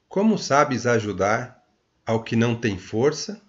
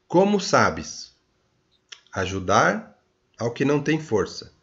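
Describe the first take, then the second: First: It is read at a faster pace. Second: It is read at a slower pace.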